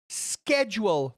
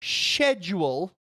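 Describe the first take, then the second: First: "schedule" as SKED-jool, slow; correct pronunciation. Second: "schedule" as SHED-jool, slow; wrong pronunciation. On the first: Streamer correcting viewers, SKED-jool for "schedule". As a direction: start "schedule" with a hard sk, drawn out. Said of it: "It's schedule, not schedule". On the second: Streamer showing what to avoid, SHED-jool for "schedule". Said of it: "not schedule". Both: Shown as a demonstration.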